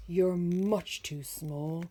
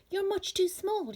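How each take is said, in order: First: Growling bear. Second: Much higher, louder teasing, leaning on too; mocking friends. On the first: Acted. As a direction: rumble it out as a gruff bear. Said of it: "Bear growled". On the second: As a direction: sneer it down at the tiny bird. Friends mocking the small bird.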